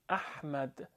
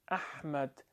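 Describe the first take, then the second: First: The h is harsh and constricted in the throat. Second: The h is harsh and constricted in the throat.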